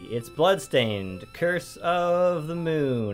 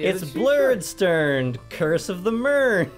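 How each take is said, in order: First: The title is pronounced in a plain, ordinary way. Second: The title's vowels are twisted into a silly pronunciation.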